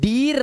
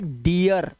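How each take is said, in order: First: A long 'ee' vowel with no 'uh' glide. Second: The 'ee' vowel glides into an 'uh' sound. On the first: The speaker calls it wrong. "अब ये डीर नहीं है" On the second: The speaker calls it right. "आर लगने से अ की आवाज भी आ जाती है"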